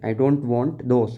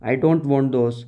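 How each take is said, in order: First: Slow, word by word for the class; slow read-aloud for young learners; slow careful reading. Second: Said in the usual way. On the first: Shown as a demonstration. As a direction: read it out slowly so children follow. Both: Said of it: "मुझे वो भी नहीं चाहिए".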